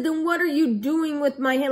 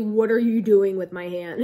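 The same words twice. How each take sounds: First: Mock yell, higher and louder; raised-voice retelling of an angry demand; retold growl. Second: Louder, mock growled demand; low growl. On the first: Patient confronting the nurse over her hand, retold growl. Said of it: "growling voice". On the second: Patient re-enacting her demand to the nurse, low mock growl. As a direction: imitate growling it out, loud and firm. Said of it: "in a low, like, growling voice".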